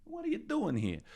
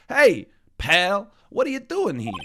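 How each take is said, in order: First: Said in the usual way. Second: Higher, louder gruff detective call; Gumshoe voice. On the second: Acted. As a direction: boom it out like a pushy cop. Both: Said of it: "It's the only voice that I can't go in and out of".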